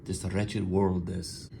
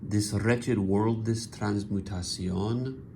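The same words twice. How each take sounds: First: Slow "This wretched world", pause, then a soft "this"; pause after world. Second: "This wretched world", clear pause, "this transmutation", read slowly; pause after world. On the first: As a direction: repeat with a marked break after "world". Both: Shown as a demonstration. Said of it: "Can you hear the pause?".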